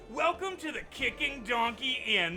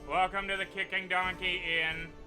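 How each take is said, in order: First: The greeting sounds lively and enthusiastic. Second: The greeting sounds weary and exasperated. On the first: The speaker calls it right. "Like that" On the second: The speaker calls it wrong. "the barkeep looks exasperated at you"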